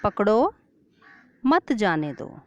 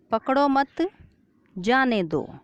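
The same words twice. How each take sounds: First: पकड़ो alone, rising, pause, then मत जाने दो falling; pause after पकड़ो. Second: पकड़ो मत together, rising, pause, then जाने दो falling; pause after मत. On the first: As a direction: break the line right after पकड़ो. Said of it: "अलग-अलग जगहों पर विराम". ("पकड़ो" के बाद विराम) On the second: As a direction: break the line after मत, before जाने दो. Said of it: "बीच-बीच में रुकते हैं". ("मत" के बाद विराम) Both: Shown as a demonstration.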